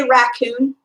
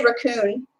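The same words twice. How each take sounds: First: Raccoon with a full "a" as in "rack"; own pronunciation of raccoon. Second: Raccoon with a weak first vowel, "ruh-COON"; other people's raccoon. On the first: Streamer tells viewers how she says it, full-vowel raccoon. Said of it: "How do you say raccoon? I say raccoon". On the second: Streamer quotes how some people say it, weak-vowel raccoon. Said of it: "I know some people say raccoon". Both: Shown as a demonstration.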